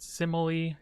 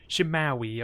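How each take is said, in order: First: The name begins with a plain 's' sound. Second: The name begins with an 'sh' sound. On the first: "Simile is what I've been calling it" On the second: "I'm assuming that's how it's properly pronounced"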